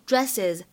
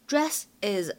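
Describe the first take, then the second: First: The two words are linked into one. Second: The two words are said separately.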